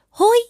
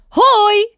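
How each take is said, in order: First: It is said very softly, squeaky. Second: It is shouted loudly from the chest.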